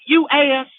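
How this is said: It is said in a Southern drawl.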